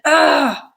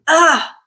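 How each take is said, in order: First: An exasperated ah, let out in annoyance; frustrated ah. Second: A short effortful ah, as if shoving something heavy; pushing grunt. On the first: Showing learners the sound you make when frustrated, exasperated ah. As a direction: sigh out a fed-up ah. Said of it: "when we are frustrated". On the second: Showing learners the sound you make when pushing, effortful ah. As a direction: strain out an ah while pushing. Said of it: "So when we're pushing something". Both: Shown as a demonstration.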